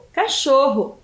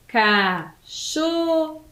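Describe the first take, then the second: First: Said in the usual way. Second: CACHORRO very slowly split into CA, CHO, RRO; syllable by syllable. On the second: Shown as a demonstration. Teacher reveals the animal to pupils, syllable by syllable. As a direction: stretch and separate each syllable of CACHORRO. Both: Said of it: "esse número de letras e de sílabas".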